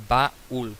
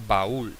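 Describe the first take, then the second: First: "baúl" split as ba-úl with a clear gap; syllable by syllable. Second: Said in the usual way. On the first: Shown as a demonstration. Teacher showing a hiatus, "baúl" broken in two syllables. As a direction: pause after ba, then stressed úl in "baúl". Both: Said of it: "que es la tónica".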